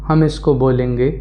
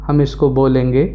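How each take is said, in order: No difference in how they are said.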